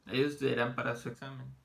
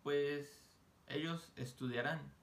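First: "Ellos estudiarán para su examen" said much louder; emphatic classroom repeat. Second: "ellos estudiarán" said slowly; measured teacher pace; slow model. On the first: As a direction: project the sentence to the back row. Teacher repeats sentence louder. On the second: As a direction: draw out "Pues ellos estudiarán" for the class. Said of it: "teacher models sentence". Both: Shown as a demonstration.

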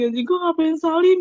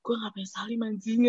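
First: High, rising cry of regret; mortified outburst. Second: Soft, under-the-breath replay of regret; regretful self-talk. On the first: Student replaying the mistake on the way to class, rising mortified outburst. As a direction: let the regret burst upward in pitch. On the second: Student replaying the mistake on the way to class, soft regret. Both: Retold or imitated.

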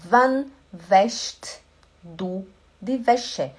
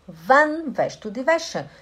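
First: Slow, word by word; slow demo. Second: Said in the usual way. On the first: Shown as a demonstration. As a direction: spell it out slowly for learners. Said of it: "teacher slowing the phrase". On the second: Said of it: "teacher repeating the phrase".

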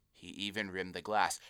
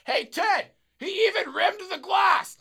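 First: Said in the usual way. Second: Very high, drawn-out shout; drunken holler. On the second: Retold or imitated. Drunk customer telling Ted about the rimmed glass, high hollering. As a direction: imitate a thrilled drunk yelling to his buddy.

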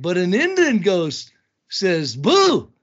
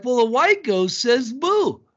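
First: Slow, loud punchline delivery. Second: Slow, deliberate punchline setup; slow joke setup. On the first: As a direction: land the punchline slowly. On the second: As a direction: lean on it slowly. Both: Retold or imitated. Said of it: "I'm like".

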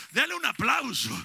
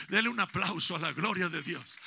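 First: Loud, rousing call to the congregation; preacher urging applause at full voice; shouted call. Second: Said in the usual way. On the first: Real, not acted. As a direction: shout it out to get them clapping. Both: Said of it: "Póngase de pie".

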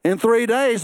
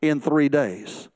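First: A bold repeat hitting "days"; stress on days. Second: Slow and low, leaning on "three"; measured preacher's emphasis on "three"; slow stressed three. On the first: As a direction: punch "days" firmly. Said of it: "the water's not parted". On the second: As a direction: draw out "three" slowly, falling at the end. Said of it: "a precept of how God worked". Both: Shown as a demonstration.

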